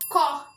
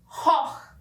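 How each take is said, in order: First: It begins with a hard k sound. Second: It begins with a throaty ch sound. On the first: This is the Standard German form. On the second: This is the Swiss German form.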